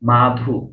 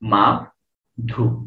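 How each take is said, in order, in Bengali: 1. শব্দটি এক এককে মসৃণভাবে, একটানা বলা হয়। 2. শব্দটি সিলেবলের মাঝে বিরতি দিয়ে দুই ভাগে ভাগ করে বলা হয়। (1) "আমরা একবারই উচ্চারণ করছি মাধু" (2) "ভাঙতে পারেন কতটুকু এটা দেখেন। ... দুইটা"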